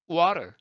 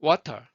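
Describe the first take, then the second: First: Water as "wah-rer"; American flap in water, no puff of air; no-breath flapped T. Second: Water with a hard released T; water said louder with an aspirated T; full T sound. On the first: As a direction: tap the T of water like a light R. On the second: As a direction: pop the T in water. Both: Shown as a demonstration. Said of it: "호흡 안 나가죠".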